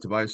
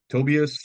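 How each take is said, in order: First: The name is said the English way. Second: The name is said the Swedish way. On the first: "you could just say Tobias" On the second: "technically in Sweden, it's pronounced"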